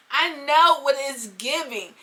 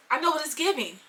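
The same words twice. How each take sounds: First: "I know what it's giving" drawn out slowly; slow, stretched stress on "know" and "giving"; knowing emphasis. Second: Said in the usual way. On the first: Shown as a demonstration. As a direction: lean hard and long on "know". Slow emphatic repeat of same words.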